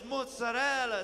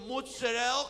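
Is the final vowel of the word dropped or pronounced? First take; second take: pronounced; dropped. First: The final vowel at the end is pronounced. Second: The final vowel at the end is dropped. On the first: The speaker calls it right. "It's so nice" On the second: The speaker calls it wrong. "they don't say the vowel on the end of the food item"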